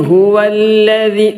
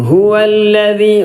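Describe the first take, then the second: The two takes are said the same way.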